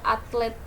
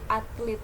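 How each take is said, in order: First: The last syllable has an e vowel. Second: The last syllable has an i vowel. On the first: This is the standard form. The speaker calls it right. "jadi tulisannya itu pakai e" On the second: This is how people commonly say it. The speaker calls it wrong. "orang-orang sering bilangnya itu pakai i"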